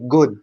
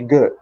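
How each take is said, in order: First: It is said the Egyptian way. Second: It is said the American way.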